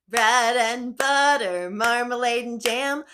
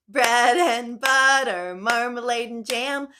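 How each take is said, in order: The two takes are said the same way.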